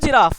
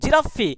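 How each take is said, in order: First: The word ends on a plain 'f' sound. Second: The word ends with an added 'ee' vowel. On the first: The speaker calls it wrong. "No জিরাফ" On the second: The speaker calls it right. "জিরাফি no জিরাফ"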